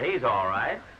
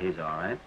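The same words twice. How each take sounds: First: It is said louder and more forcefully. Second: It is said quietly and without enthusiasm. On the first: The speaker tries to sound sincere. The speaker calls it right. "Is that better? Well, it's louder" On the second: The speaker does not seem to mean it. The speaker calls it wrong. "say it as though you meant it"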